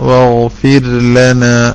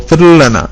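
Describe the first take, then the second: First: The r is held clearly before the l. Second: The r is rushed and merged into the l. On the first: The speaker calls it right. "സമയമെടുത്തൊരു റാ പറയണം, എന്നിട്ട് വേണം ല" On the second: The speaker calls it wrong. "ബിർല എന്നൊക്കെ പറയുന്ന ഒരു ശൈലിയിലേ വരുന്നുള്ളൂ"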